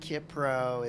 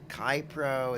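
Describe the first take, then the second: First: The first syllable has the short vowel 'ih'. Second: The first syllable has the vowel in 'eye'. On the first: "Is it Kipro?" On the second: "Is it Kypro?"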